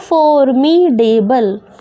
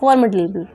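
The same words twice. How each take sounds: First: The d sound is pronounced clearly. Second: The d sound is softened, nearly silent. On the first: The speaker calls it wrong. "Read करोगे तो आएगा फॉर्मिडेबल" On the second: The speaker calls it right. "डी भी थोड़ा silent ही रखते हैं"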